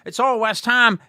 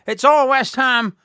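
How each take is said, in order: First: Said in the usual way. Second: Louder and slower, stress on all; building excitement. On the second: Real, not acted. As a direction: lean into it, getting fired up. Repeats phrase louder.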